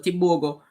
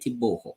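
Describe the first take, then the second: First: The name is said with a G sound. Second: The name is said with an H sound. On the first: The speaker calls it wrong. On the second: The speaker calls it right.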